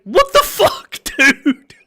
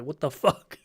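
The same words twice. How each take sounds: First: High, laughing what the fuck; incredulous laugh breaking through the words; laughing disbelief. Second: Softer, under-the-breath what the fuck; quiet bewildered aside; muted disbelief. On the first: Disbelieving reaction to chat message. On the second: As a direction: let it drop out quietly, bemused. Same reaction, said muted. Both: Real, not acted.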